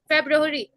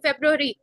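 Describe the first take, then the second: No difference in how they are said.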